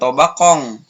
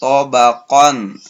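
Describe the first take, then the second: First: The final n is nasalized like ng. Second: The final n is a clear n. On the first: The speaker calls it wrong. "bukan tabaqong" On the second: The speaker calls it right. "tidak diangkan tetapi jelas"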